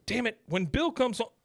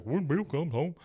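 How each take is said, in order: First: High-pitched, frustrated outburst; exasperated Hank. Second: Taunting parrot in a silly raised voice; mocking. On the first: Retold or imitated. Retelling Hank's threat to the trespasser, exasperated. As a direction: act out an indignant protest, pitch jumping. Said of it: "the guy starts making fun of Hank". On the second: The guy making fun of Hank, mocking. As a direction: mimic it back to make fun. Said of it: "starts making fun of Hank".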